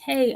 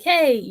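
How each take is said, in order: First: It is said at normal loudness. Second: It is said a little louder.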